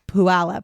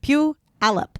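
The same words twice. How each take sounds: First: The first syllable sounds like 'pooh'. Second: The first syllable sounds like 'pew'. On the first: The speaker calls it wrong. "he says Puyallup, ... it's not Pooh" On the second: The speaker calls it right. "it's Pew"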